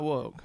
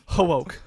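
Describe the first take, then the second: First: The word starts with a plain W sound. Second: The word starts with an added H sound. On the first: The speaker calls it wrong. "I said it wrong" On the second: The speaker calls it right. "There's no H in woke"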